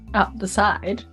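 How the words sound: It sounds approving and agreeable.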